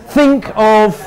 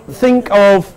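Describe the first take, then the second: Both takes have the same delivery.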